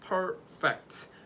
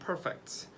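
First: The word is said slowly and carefully. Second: The word is said quickly.

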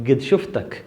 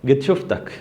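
The two takes are said the same way.

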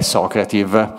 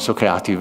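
First: It is pronounced with Italian sounds. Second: It is pronounced with American English sounds. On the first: "quindi lo italianizzo" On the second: "gli americani dicono Socrative"

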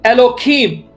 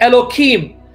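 Both takes have the same delivery.

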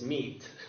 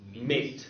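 First: The vowel is a long 'ee' sound. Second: The vowel is an 'ay' sound. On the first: This is how the word sounds today. "And now it's meat" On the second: This is how the word sounded somewhat later. "Then after a while, it was pronounced mate"

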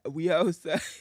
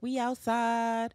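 First: It is said in a put-on deeper, manly voice. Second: It is said in a lighter, natural voice.

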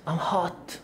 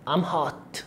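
Both takes have the same delivery.

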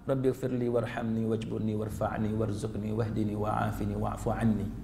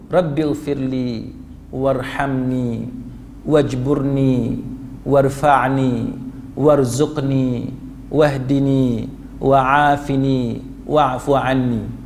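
First: It is recited mechanically, without a pleading tone. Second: It is recited pleadingly, as if truly asking.

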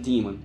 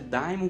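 First: The word is pronounced in the English way. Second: The word is pronounced in the Greek-derived way. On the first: This is how English speakers say the word. "em inglês eles pronunciam daemon" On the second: This form comes from the original Greek word. "pronúncia é daimon porque vem do grego"

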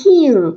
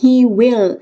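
First: It is said as one short contraction. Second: It is said as two full separate words.

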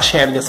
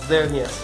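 First: The name begins without a z sound. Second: The name begins with a z sound. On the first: The speaker calls it wrong. "Você não fala Chernias" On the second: The speaker calls it right. "É a função de Z mesmo. Fala Zernias"

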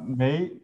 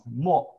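First: The syllable is pronounced mei. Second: The syllable is pronounced mo, falling tone. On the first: It is the usual reading meaning 'not have'. "We normally pronounce the first letter Mei" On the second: It is the special reading used in this term. "we pronounce the fourth tone"

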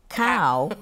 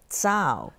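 First: The word begins with a k sound. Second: The word begins with a ts sound. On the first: The speaker calls it wrong. "people would pronounce it as cow" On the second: The speaker calls it right. "but it's actually a tsao"

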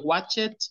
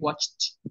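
First: The ending is said as an extra syllable. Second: The ending adds no syllable, vowel is silent. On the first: The speaker calls it wrong. "No se dice watch it" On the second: The speaker calls it right. "Las E son mudas. Entonces dice I watched"

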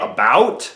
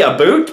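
First: The vowel starts with the tongue kept low. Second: The vowel starts with the tongue raised higher. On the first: "most normal say about" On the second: "I say about"

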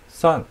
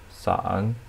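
First: The pitch falls sharply from high. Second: The pitch dips low, then rises.

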